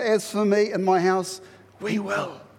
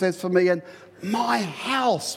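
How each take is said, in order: First: The stress is on "we will". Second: The stress is on "my house".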